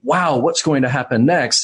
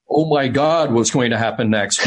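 First: It sounds excited and positive. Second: It sounds alarmed and fearful.

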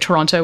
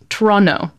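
First: The second t sound is clearly pronounced. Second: The second t sound is dropped. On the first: The speaker has lived away from the city too long. The speaker calls it wrong. "I now sometimes say Toronto, which is really awful" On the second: It is the way locals say it. The speaker calls it right. "No second T pronounced"

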